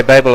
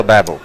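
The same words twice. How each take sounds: First: Babel said as BAY-bul; Babel with long A. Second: Babel said as BAB-ul; Babel with short A. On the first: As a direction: say Babel with an "ay" first vowel. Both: Shown as a demonstration. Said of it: "You say Babel or Babel".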